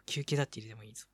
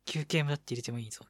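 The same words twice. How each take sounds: First: Quick, softer repeat; fast and soft. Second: Said in the usual way. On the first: Shown as a demonstration. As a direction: rush it quietly.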